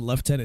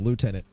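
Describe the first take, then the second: First: The first syllable sounds like 'left'. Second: The first syllable sounds like 'loo'. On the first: This is the British way of saying it. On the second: This is the non-British way of saying it.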